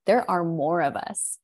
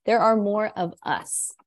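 First: Said in the usual way. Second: "are" lifted and pressed hard, falling after; stress on are. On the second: Real, not acted. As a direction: lean into "are" in There are more of us.

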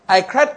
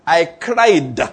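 First: Said in the usual way. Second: "cried" drawn out with a hard final d; stress on CRIED. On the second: Shown as a demonstration. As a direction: lean on "cried", sounding out its past-tense ending. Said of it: "I'm trying to emphasize the past tense".

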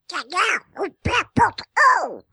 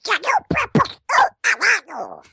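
First: Squawky cartoon duck voice; Pato Donald voice. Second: Higher, furious squawking duck voice; angry Pato Donald. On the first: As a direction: quack the words like a cartoon duck. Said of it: "em voz de Pato Donald". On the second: Acted. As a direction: sputter it like an enraged cartoon duck. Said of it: "como o Pato Donald irritado".

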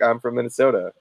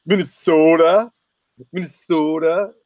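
First: Said in the usual way. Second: Mock thick Minnesotan. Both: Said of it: "If I talked like that".

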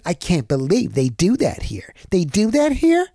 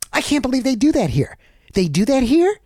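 First: Starts in his own voice, then jumps high on the question; mock a resident's disbelief, peaking on "here"; imitating the neighbor again. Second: High, incredulous mock-neighbor voice, pitched up; imitating the neighbor. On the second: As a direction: play a stunned resident who can't believe it. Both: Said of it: "That's how he said it".

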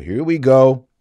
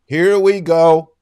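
First: Exasperated. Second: Louder, higher, slow drawn-out groan of here we go; weary dramatic sigh of resignation; exasperated. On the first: Exasperated at the priest's reply. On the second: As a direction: stretch it out like you knew this was coming. Repeated louder, slower. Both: Real, not acted.

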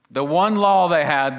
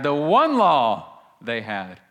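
First: Louder, "law" stressed; emphatic first take. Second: Slowed, "one" stressed hard; slow emphatic repeat. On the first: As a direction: say "The one law they had" with weight on "law". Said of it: "repeated phrase, first take". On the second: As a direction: stretch out "the one law they had", hitting "one". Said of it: "repeated phrase, second take". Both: Shown as a demonstration.

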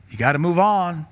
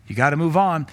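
Both takes have the same delivery.

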